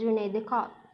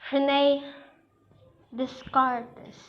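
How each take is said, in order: First: Some letters are left silent, French style. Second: Every letter of the name is pronounced. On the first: The speaker calls it right. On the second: The speaker calls it wrong.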